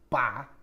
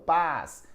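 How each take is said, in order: First: The syllable ends without an s sound. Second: The syllable ends with an s sound. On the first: The speaker calls it right. "a primeira sílaba é pá" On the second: The speaker calls it wrong. "Nada disso"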